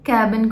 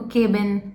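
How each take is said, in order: First: The first vowel is an open 'a' as in cat. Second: The first vowel is a closer 'e' as in bed. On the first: "ए और ई sound mix match हो रहे हैं" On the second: "कैबिन को केबिन"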